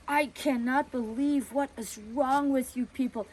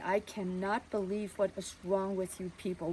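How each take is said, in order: First: Raised, scolding neighbor voice; a busybody tearing into them; accusing a family for letting their girl go; indignant neighbor. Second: A father forcing himself to stay calm; father quietly answering the nosy neighbor; held-back anger. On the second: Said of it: "he was just gonna explode". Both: Retold or imitated.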